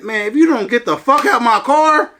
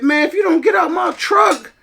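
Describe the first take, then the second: First: A firm, threatening repeat of the order; aggressive threat. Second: High, furious retold shout; angry yelling. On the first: Retold or imitated. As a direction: lean on it, ready to fight. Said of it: "I said it aggressively". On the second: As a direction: yell him out of the truck, hot with rage. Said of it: "I had to go off on her".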